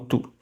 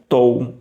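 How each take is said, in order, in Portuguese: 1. Só se ouve uma única vogal u. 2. O o e o u são ouvidos como vogais separadas. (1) "você lê como tu" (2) "Você não lê como tou"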